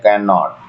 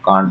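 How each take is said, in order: First: It is said as two full syllables. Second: It is said as one short syllable. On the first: "the expanded form of the verbs while writing" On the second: "we use contract from the verbs while speaking"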